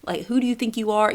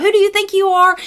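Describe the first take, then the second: First: Said in the usual way. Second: Much higher, louder, indignant snap; outraged mom. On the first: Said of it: "You know how we get sometimes". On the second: Retold or imitated. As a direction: go from zero to hundred on it. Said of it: "go from zero to hundred".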